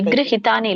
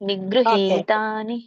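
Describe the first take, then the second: First: The vowel in 'hi' is short. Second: The vowel in 'hi' is drawn out long. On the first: The speaker calls it wrong. "ನಿಗೃಹಿತಾನಿ ಇಲ್ಲ" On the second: The speaker calls it right. "ಹಿ ಎಳಿಬೇಕು"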